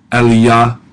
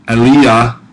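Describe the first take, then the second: No difference in how they are said.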